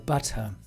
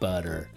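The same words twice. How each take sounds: First: Said in a British accent with a clear t. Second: Said in an American accent with a d-like middle. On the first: "But in England, you would go for butter" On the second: "in America... It's like B U D D E R"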